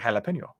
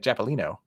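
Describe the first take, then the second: First: The L sound comes before the P sound. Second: The P sound comes before the L sound. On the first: The speaker calls it right. "We say jalapeno" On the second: The speaker calls it wrong. "We don't say japalino"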